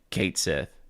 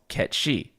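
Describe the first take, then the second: First: The name is said like 'kate-sith'. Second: The name is said like 'ket-shee'. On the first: It is easier for English speakers. "it's easier for English speakers to just be like Kate Sith" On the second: It follows the original source of the name. "it made sense for the character to be called Ketchi"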